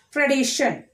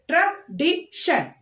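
First: Said in the usual way. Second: TRADITION slowly as tra, di, shun; split into syllables. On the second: Shown as a demonstration. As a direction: TRADITION in three separate beats. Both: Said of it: "We are splitting the word".

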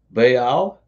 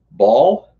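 First: Baal split into two syllables, "bay-al", rising; Baal drawn out as "bay-al", asking; pronounced Baal. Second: Baal said as one syllable, "bawl"; Baal, said like "bawl" with a rising question; pronounced Baal. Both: Shown as a demonstration. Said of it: "is the Ugarit's god name pronounced".

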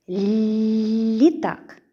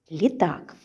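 First: Літак stretched slowly, the first sound held long; drawn-out sounding-out. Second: Said in the usual way. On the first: Shown as a demonstration. Teacher sounding out Літак for preschoolers, drawn out. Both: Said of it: "Який перший звук у слові літак?".

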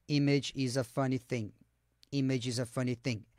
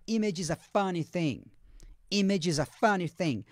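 First: Robotic monotone, low and soft on "Image is a funny thing"; no intonation. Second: "Image is a funny thing" with natural melody, "funny" standing out; stress on FUNNY. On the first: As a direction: read "Image is a funny thing" like a text-to-speech robot, every word level. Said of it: "se fosse sem entonação, ele falaria". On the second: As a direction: lift "funny", then fall on "thing". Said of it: "É o funny". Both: Shown as a demonstration.

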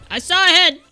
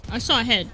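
First: Insistent repeat. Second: Said in the usual way. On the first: Real, not acted. Gamer spotting a head, insistent and raised. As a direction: insist on the sighting.

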